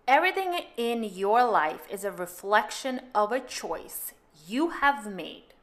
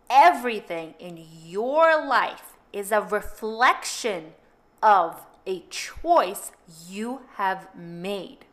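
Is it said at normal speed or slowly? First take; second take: normal speed; slowly. First: It is said at a normal pace. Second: It is said slowly and deliberately.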